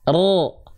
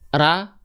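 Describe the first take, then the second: First: The vowel is a heavy, rounded O sound. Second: The vowel is a light, open A sound. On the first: "Angkat pangkal lidah" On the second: "Kalau vokalnya A berarti pangkal lidahnya nggak naik"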